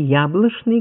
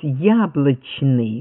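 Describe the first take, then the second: First: The consonant before n sounds like sh. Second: The consonant before n sounds like ch. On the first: "говорили в Москве" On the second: "говорили в Петербурге"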